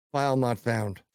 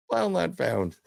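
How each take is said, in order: First: Said in the usual way. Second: Laughing disbelief. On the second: Retold or imitated. Teller laughing at the missing video file. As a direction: repeat it higher with a laugh.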